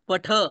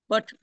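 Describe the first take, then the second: First: The final vowel is fully sounded. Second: The final vowel is cut off short. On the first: The speaker calls it right. "पूर्णच म्हणायचं" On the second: The speaker calls it wrong. "पठ असं नाही म्हणायचं"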